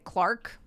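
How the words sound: It is said in an American accent. "And I say"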